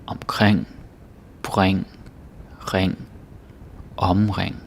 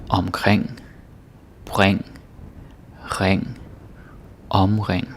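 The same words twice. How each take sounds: Both takes have the same delivery.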